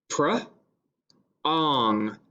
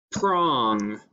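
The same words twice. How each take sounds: First: "pr-ong" split, blend then rime; segmented word. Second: Said in the usual way. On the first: Shown as a demonstration. Teacher segmenting "pr-ong" for the class. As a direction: stretch "pr-ong" into two parts. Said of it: "then we're going to pound it". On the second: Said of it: "I'm going to say the word".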